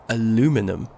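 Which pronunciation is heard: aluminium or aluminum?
aluminum. It is said the other region's way. This is how some listeners expect it to be said. The speaker calls it wrong. "thinking I should be saying aluminum"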